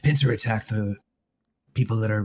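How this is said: It is said in a put-on character voice.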